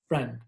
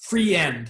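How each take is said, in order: First: The word is said as one long syllable. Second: The word is split into two syllables. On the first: The speaker calls it right. "that's just one" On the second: The speaker calls it wrong. "If it was free end, that's two syllables"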